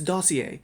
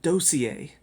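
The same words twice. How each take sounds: First: The word does not begin like do-si-do. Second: The word begins like the dance call do-si-do. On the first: The speaker calls it right. "no, it's it's dossier" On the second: The speaker calls it wrong. "She pronounces it dossier"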